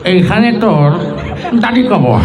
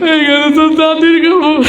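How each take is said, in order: First: It is said in an old man's voice. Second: It is said in a crying voice. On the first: "মুরব্বী পান খেতে খেতে আসছে তার মতো" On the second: "ইমোশনাল ছেলে আসছে। সে এসে আবৃত্তি করছে এইভাবে"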